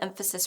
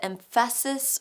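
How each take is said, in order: First: Said in the usual way. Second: "emphasis" stressed on its middle syllable, em-FASS-is; misplaced stress. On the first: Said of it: "where the emphasis falls on the word". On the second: Shown as a demonstration. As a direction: land the stress on "pha" in "emphasis". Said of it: "put the emphasis on the wrong syllable".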